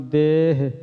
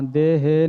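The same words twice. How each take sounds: First: ਦੇਹ said as one short syllable; clipped single-syllable ਦੇਹ; correct pronunciation. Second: ਦੇਹ said with an extra vowel at the end; ਦੇਹ drawn out to two syllables; wrong pronunciation. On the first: Teacher giving students the correct ਦੇਹ, one short syllable. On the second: Teacher showing students how not to say ਦੇਹ, stretched to two syllables. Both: Shown as a demonstration. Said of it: "ਦੇਹ ਨਹੀਂ ਬੋਲਣਾ".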